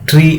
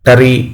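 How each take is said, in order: First: The consonants blend into a single syllable. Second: An extra vowel splits it into two syllables. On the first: The speaker calls it right. "స్పష్టంగా ట్రీ అని అంటాం" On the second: The speaker calls it wrong. "టరీ లేదా ఈ అని అనం కదా"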